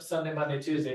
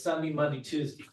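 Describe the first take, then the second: First: It is spoken in a general, non-local accent. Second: It is spoken in a strong local Utah accent. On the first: The speaker calls it wrong. "the days of the week aren't" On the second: The speaker calls it right.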